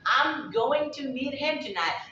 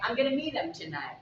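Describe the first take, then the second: First: 'Going to' and 'him' are said fully. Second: It uses 'gonna' and 'him' reduced to 'um'. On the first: "you can say that, I'm going to meet him tonight" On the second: "If you contract it ... it'll be sounding like"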